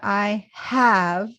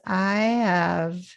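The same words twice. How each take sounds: First: The h in have is clearly pronounced. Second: The h in have is barely audible. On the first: The speaker calls it wrong. "It's not a I have" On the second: The speaker calls it right. "The H is is barely audible"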